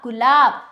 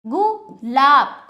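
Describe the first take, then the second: First: गुलाब as one whole, loud word; loud, connected गुलाब for pupils; joined-up pronunciation. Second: गुलाब slow and loud, split into गु and लाब; drawn-out two-part गुलाब; broken-up pronunciation. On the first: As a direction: blend गुलाब without a break. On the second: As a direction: pause after गु, stretch लाब. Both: Shown as a demonstration. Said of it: "तोड़कर जोड़कर उच्चारण".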